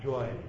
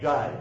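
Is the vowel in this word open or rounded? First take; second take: rounded; open. First: The vowel is rounded, like 'oy'. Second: The vowel is open and unrounded, like 'ai'. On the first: "but it's joy. ... it's more of a rounded A. Your mouth goes more circular" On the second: "that's jai"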